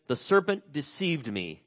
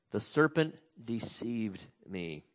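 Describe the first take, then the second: First: Said in the usual way. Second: "The serpent deceived me" repeated slower and softer, letting it sink in. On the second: Shown as a demonstration. Preacher repeating Eve's excuse to let it land, slow and soft.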